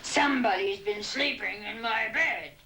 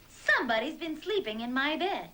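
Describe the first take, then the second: First: It is said in a big, gruff voice. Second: It is said in a medium-sized voice. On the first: "in his great big gruff voice" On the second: "in her middle-sized voice"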